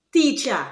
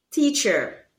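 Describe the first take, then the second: First: "teacher" ending in an open A; Creolese pronunciation. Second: Said in the usual way. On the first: Shown as a demonstration. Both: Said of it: "replace the sound with".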